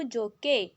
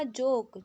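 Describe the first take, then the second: First: जोके with the final e sounded, jo-kay; wrong pronunciation. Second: जोक as one syllable, e silent; right pronunciation. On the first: Teacher shows pupils the wrong reading, जोके with the e voiced. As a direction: say जोके voicing the silent e. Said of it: "अगर ई silent नहीं होता तो क्या कहते". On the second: Teacher shows pupils the right reading, जोक with silent e. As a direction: say जोक short, ending on k. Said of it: "लेकिन हमने इसको क्या कहा". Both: Shown as a demonstration.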